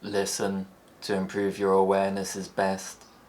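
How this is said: The pitch stays level in the middle throughout. "Flat tones don't change"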